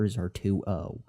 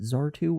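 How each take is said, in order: First: The name ends with an added 'o' sound. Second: The name ends without a final 'o' sound. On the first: "Do I enunciate the O at the end?" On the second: "Do I enunciate the O at the end?"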